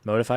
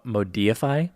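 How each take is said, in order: First: It sounds like the ordinary word 'modify'. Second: Its second part sounds like the word 'deify'.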